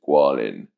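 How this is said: The name is said with an English pronunciation. "but the English pronunciation is"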